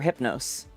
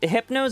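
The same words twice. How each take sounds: First: The final S is pronounced hard. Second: The final S is pronounced soft. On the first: "hard S"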